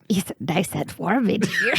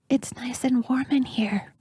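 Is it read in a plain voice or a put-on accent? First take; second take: put-on accent; plain. First: It is read in a put-on foreign accent. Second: It is read in a plain, natural voice.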